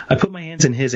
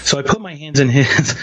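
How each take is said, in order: First: Said through a laugh, softer; giggling while retelling the moment, much softer. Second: Said in the usual way. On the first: Real, not acted. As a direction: let a real laugh break in, softer. Repeats line while laughing.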